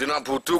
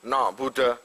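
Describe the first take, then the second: First: The word ends with an u vowel. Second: The word ends with an a vowel. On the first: The speaker calls it right. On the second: The speaker calls it wrong.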